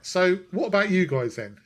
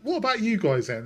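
First: The voice is pitched lower. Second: The voice is pitched too high.

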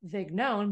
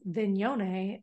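First: The name is said with American pronunciation. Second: The name is said with Italian pronunciation. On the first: It is the Americanized form of the name. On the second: It sounds fancy and true to the family roots.

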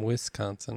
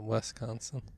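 First: The first vowel sounds like 'wis'. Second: The first vowel sounds like 'wes'. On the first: The speaker calls it right. "I'm from Wisconsin" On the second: The speaker calls it wrong. "not Wisconsin... You're saying Wes"

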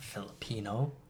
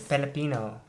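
First: The word begins with an F sound. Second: The word begins with a P sound. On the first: The speaker calls it wrong. "Not Filipino" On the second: The speaker calls it right. "There's no F in Filipino"

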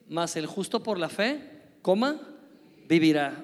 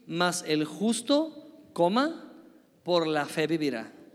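First: The break comes after the word fe. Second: The break comes after the word justo.

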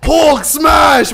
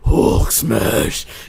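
First: It is said in a higher Hulk voice. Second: It is said in a lower Batman voice.

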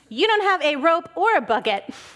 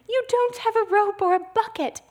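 First: It is said in a sarcastic tone. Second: It is said in a plain, sincere tone.

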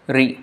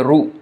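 First: An r followed by an i vowel. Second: An r followed by a u vowel. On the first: "But for Bengali, we say this is the kind of pronunciation it gets" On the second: "And in Gujarati, they say Ru"

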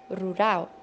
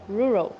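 First: The R is a breathy, H-like sound. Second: The R is a smooth English R sound. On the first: The speaker calls it wrong. "na língua portuguesa, nós pronunciamos rural" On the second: The speaker calls it right. "em inglês se pronuncia rural"

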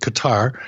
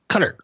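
First: The name is said rhyming with guitar. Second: The name is said not rhyming with guitar. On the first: The speaker calls it wrong. "Every time I pronounce it Qatar, people would say it's not like guitar" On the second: The speaker calls it right. "it's Qatar"

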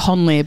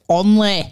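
First: The name is said in a standard accent. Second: The name is said in a Yorkshire accent. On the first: This is how the name is supposed to be said. "It's supposed to be said Honley" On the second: This is how locals say the name. "but it's the Yorkshire accent"

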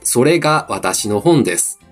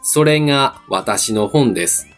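First: Osaka intonation with a plain, hard が sound. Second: Osaka intonation with a soft, nasal が sound.

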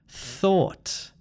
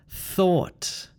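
No difference in how they are said.

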